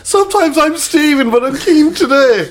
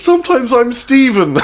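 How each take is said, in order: First: High, slow put-on voice; hammed-up innocent bloke; a lightly voiced imitation of the lad; mock earnest quote. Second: High, slow, laughing through the words; laughing retelling of a punchline; laughing quote. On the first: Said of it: "and he went". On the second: Retold or imitated. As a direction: crack up while quoting him. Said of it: "he goes".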